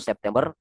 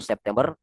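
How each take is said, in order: First: It is said with Indonesian pronunciation. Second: The same.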